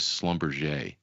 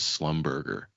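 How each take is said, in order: First: The name begins with an 'shl' sound. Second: The name begins with a plain 'sl' sound. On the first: The speaker calls it right. "which is Schlumberger" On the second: The speaker calls it wrong. "I mispronounced it as Slumberger"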